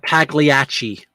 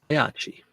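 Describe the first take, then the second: First: The g is sounded as a hard g. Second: The gli sounds like the y in million. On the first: The speaker calls it wrong. "It's not Pagliacci, you heathens" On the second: The speaker calls it right. "P L I is pronounced like million. The y in million"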